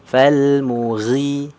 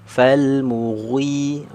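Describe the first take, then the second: The two takes are said the same way.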